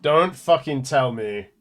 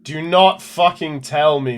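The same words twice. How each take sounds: First: Slow, level dread, no big push. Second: Slow and louder, leaning hard on "not"; emphatic dread. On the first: Player fears the lab secret, slow and heavy. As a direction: say it heavily, bracing for bad news. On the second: Player refuses the bad news, slow, louder, stressing "not". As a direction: stretch "Do not" and punch "not" higher and louder. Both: Real, not acted.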